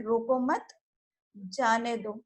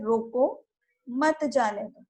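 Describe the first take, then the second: First: रोको मत together, then a short break before जाने दो; pause after मत. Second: रोको, then a short break before मत जाने दो; pause after रोको. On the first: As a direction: break right after मत, setting जाने दो apart. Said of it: "इसी कॉमा को हटाकर मैं मत के बाद लगा देती". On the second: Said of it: "यहाँ यदि कॉमा में रोको के बाद लगाती हूँ". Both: Shown as a demonstration.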